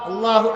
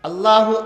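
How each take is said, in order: The two takes are said the same way.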